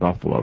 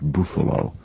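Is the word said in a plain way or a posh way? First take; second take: plain; posh. First: The word is said in an ordinary way. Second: The word is said in a fancy, posh way. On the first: The name sounds ordinary and unglamorous. "the name Buffalo not being a very Tony name" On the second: The name sounds classier. "he now pronounces it Buffalo"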